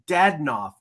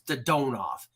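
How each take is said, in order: First: The stress is on the first syllable. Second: The stress is on the second syllable. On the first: This is the pronunciation used for years. The speaker calls it wrong. "he's been Dadonov" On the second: This is the newly adopted pronunciation. The speaker calls it right. "now all of a sudden it's Dadonov"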